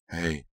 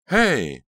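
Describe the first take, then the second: First: Choked out. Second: Loud, high-pitched cry to intervene; alarmed shout. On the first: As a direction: squeeze the word out as if throttled. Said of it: "Delia choked out". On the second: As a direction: call out sharply in alarm. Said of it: "Delia heard Pretty cry". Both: A narrator's reading.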